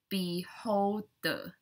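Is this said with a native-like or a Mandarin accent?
Mandarin. It is said with a Taiwanese Mandarin accent. The speaker calls it wrong. "and not beholder"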